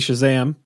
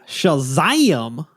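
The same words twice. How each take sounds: First: It is said in a plain, ordinary voice. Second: It is said in a drawling Southern comic voice. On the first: The speaker calls it right. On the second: The speaker calls it wrong.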